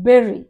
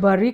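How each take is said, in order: First: The first vowel sounds like 'berry'. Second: The first vowel sounds like 'bur'. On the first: The speaker calls it right. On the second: The speaker calls it wrong. "అది బర్రీ కాదు"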